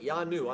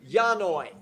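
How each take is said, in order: First: The word ends with an 'oo' sound. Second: The word ends with an 'oy' sound. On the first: The speaker calls it right. "really that Y is a U" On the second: The speaker calls it wrong. "So I said it wrong"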